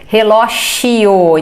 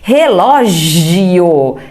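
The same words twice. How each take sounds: First: The J sound is voiceless, like an SH. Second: The J sound is voiced, with vibration.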